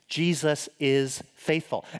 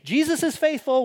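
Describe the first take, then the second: First: It is said sincerely and earnestly. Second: It is said flippantly and jokingly.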